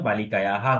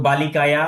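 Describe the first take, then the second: First: "বালিকায়াহা" with an added ha; visarga echoing a. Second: "বালিকায়া" ending on open long a; without visarga. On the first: Teacher showing students the visarga's effect, "বালিকায়াহা" ending in ha. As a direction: echo the long a after h in "বালিকায়াহা". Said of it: "বিসর্গ থাকার কারণে বালিকায়াহা". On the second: Teacher showing students the base word, "বালিকায়া" without final ha. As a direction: end "বালিকায়া" in ya, no h after it. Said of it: "শব্দটা ছিল বালিকায়া". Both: Shown as a demonstration.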